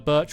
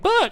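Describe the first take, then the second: First: It is said in an ordinary speaking voice. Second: It is said in a silly high-pitched voice. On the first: The speaker calls it wrong. "Sorry, I should be saying birch" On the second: The speaker calls it right. "birch in a in a higher pitch voice"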